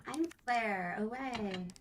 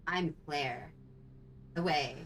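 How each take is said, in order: First: High put-on game heroine voice; Rebecca. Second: Lightly voiced heroine, closer to natural pitch; Claire. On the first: Co-streamer playing Claire in the wrong voice, high Rebecca voice. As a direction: pitch it up, drawn out at the end. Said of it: "I'm using my Rebecca voice". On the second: Co-streamer corrects the impression for Claire, lightly voiced Claire. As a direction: redo the heroine a notch more grounded. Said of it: "I have to change".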